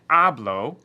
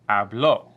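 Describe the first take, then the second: First: The stress is on the first syllable. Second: The stress is on the last syllable. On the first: The speaker talks now, in the present. "instead of saying hablo, like this" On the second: Someone else spoke, in the past. "we're going to emphasize and punctuate and give that little bit of a ump right there"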